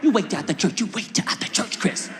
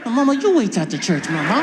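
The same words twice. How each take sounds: First: Mother's warning. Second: Defiant talking back. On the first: Acts mother threatening him. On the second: Son to his mother in church, loud defiance. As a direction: throw the threat back loudly. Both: Retold or imitated.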